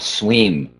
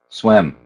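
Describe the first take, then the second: First: The vowel is a long, tense 'ee' sound. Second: The vowel is a short, lax 'i' sound. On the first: The speaker calls it wrong. "another case of that tonal vowel" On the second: The speaker calls it right. "You've got to do it with that if vowel"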